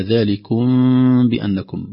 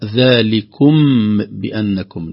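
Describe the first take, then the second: First: ذلكم بأنكم with the mim hidden into the ba. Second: ذلكم بأنكم with the م fully pronounced; clear mim. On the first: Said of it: "قلنا". (إخفاء شفوي للميم) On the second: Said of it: "لم نقرأ". (إظهار الميم في ذلكم) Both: Shown as a demonstration.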